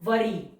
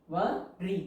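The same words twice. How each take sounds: First: Said in the usual way. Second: वरी split into "wo" and "ri" with a pause; syllable by syllable. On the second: Shown as a demonstration. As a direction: break वरी in two as if dictating. Syllable-by-syllable while writing.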